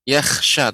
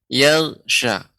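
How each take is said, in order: First: The middle consonant is a voiceless scraping kh. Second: The middle consonant is a voiced gh sound. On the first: It means something very different. The speaker calls it wrong. "bukan seperti kha, bukan yakh yakhsha" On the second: It means to cover. The speaker calls it right. "tapi yalsha"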